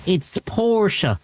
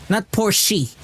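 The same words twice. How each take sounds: First: "Porsche" said PORSH, one syllable, with no E at the end; "Porsche" as PORSH, no E sound; correct Porsche. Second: "Porsche" said PORSH-ee, with an E sound at the end; the mistaken PORSH-ee "Porsche"; wrong Porsche. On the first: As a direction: say "Porsche" as PORSH and drop the final E. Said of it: "There's no E in Porsche". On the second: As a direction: give "Porsche" a final E, PORSH-ee. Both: Shown as a demonstration.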